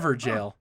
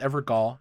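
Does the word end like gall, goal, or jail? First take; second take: jail; gall. First: The last syllable sounds like jail. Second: The last syllable sounds like gall. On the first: The speaker calls it right. "G A O L is the original English spelling of the word jail" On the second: The speaker calls it wrong. "I thought it was Evergall"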